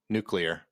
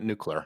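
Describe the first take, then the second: First: It is said nu-klee-er, without a y sound. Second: It is said nu-kyu-ler, with a y sound. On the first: The speaker calls it right. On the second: The speaker calls it wrong.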